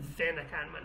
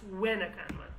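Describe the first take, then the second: First: The word begins with a V sound. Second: The word begins with a W sound. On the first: This is how a speaker of another Sorani accent says it. The speaker calls it wrong. "it's not the Venakanman" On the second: This is how the speaker's own accent says it. The speaker calls it right. "it's Wenakanman"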